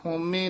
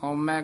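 First: The word ends in an 'e' vowel. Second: The word ends in an 'ai' vowel. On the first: The speaker calls it right. "ਹੋਮੇ ਲਾਂ ਦੇ ਨਾਲ ਹੀ ਉਚਾਰਨ ਕਰਨਾ" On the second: The speaker calls it wrong. "ਆਮ ਹੋਮੈ ਕਹਿ ਜਾਂਦੇ"

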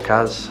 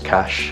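First: The name is said the non-local way. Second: The name is said the local way.

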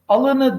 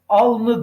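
First: The second-syllable vowel is kept in the word. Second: The second-syllable vowel is dropped from the word. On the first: The speaker calls it wrong. "alını demeyiz" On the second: The speaker calls it right. "alnı deriz"

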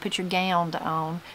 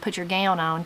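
First: The word gown ends with an added d. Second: The word gown ends plainly with an n. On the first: "put a D on it" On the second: "Instead of just saying gown"

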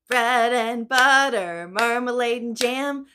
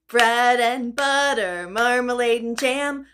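No difference in how they are said.

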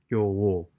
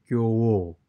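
First: The second syllable starts with a w sound. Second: The second syllable starts with a w sound.

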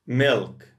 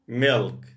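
No difference in how they are said.

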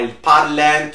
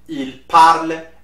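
First: The ending ENT is pronounced aloud. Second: The ending ENT is silent. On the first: The speaker calls it wrong. "So you will not say il parlant" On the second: The speaker calls it right. "You do not pronounce ENT. So you will say il parle"

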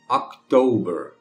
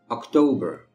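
First: The word is said slowly. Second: The word is said at normal speed. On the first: "uma vez devagarinho" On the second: "a outra normal"

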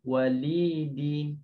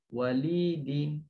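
The two takes are said the same way.

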